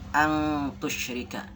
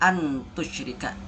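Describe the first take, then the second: First: The n is blurred toward an ng sound. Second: The n is pronounced clearly and fully. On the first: The speaker calls it right. "tapi dibaca angtusyrika" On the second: The speaker calls it wrong. "Tidak dibaca antusyrika"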